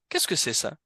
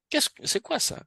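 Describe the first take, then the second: First: « Qu'est-ce » appuyé puis descente de la voix; question plus posée. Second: « quoi » lancé très haut, voix qui grimpe; intonation interrogative exagérée. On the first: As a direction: reprenez la question en redescendant à la fin. (question qui retombe, accent sur « Qu'est-ce ») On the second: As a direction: poussez la question vers l'aigu sur « quoi ». (question surjouée, « quoi » très aigu) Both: Shown as a demonstration. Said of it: "tu vas mettre une intonation".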